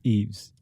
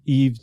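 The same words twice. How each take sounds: First: The name is said with a final s sound. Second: The name is said without a final s sound. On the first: The speaker calls it right. "but it's Eves" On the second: The speaker calls it wrong. "I didn't pronounce the S on Eves"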